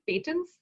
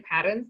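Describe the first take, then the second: First: The word is pronounced the Indian way. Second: The word is pronounced the North American way. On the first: "in India, I think we, we pronounce it pa- patents" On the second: "now I say parents"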